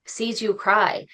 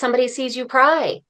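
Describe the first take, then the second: First: Tender self-comfort; soft reassurance. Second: Somebody sees you cry asked pitched up; mock challenge to herself; raised questioning. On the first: Retold or imitated. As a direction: cry said slow and softer. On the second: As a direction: cry lifted high as a challenge. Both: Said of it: "that's when I was like".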